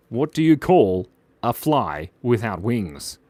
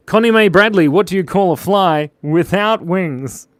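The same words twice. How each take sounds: First: Slow, measured retelling of a riddle; deliberate repeat. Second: High, loud call-out, slowing into the riddle; loud joke announcement. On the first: Streamer repeating an important joke for a viewer, slow and deliberate. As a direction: spell the riddle out slowly and seriously. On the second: Streamer putting a joke to a named viewer, loud announcement. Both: Real, not acted.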